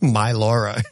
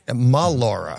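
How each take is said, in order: First: The first syllable sounds like 'my'. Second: The first syllable sounds like 'ma'. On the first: The speaker calls it wrong. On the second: The speaker calls it right.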